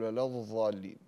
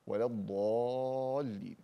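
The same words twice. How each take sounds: First: الضالين said with ظ instead of ض; dad turned to zaa. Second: الضالين with a true ض, drawn out slowly; correct dad, slow. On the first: Teacher shows the mistake of reading dad as zaa. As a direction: swap the ض in الضالين for a ظ. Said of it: "لا تقلبها إلى ظاء". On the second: Teacher gives the correct dad, slow. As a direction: give the ض in الضالين its full weight, slowly. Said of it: "والضاد لا تقلبها". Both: Shown as a demonstration.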